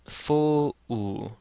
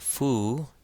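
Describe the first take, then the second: First: The vowels are split into two syllables. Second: The vowels merge into one syllable. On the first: The speaker calls it right. "it says fo-u" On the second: The speaker calls it wrong. "this does not say fu"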